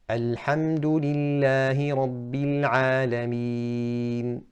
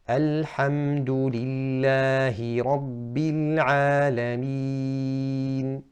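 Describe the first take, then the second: First: It is recited quickly. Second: It is recited at a moderate pace.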